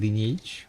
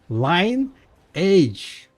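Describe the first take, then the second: First: It is said as three syllables, lin-ee-age. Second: It is said as two parts, line plus age. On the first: The speaker calls it wrong. "not fucking lineage" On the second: The speaker calls it right. "It's line age"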